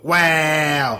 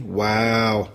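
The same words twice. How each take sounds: First: It is said in a New York accent. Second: It is said in a neutral accent.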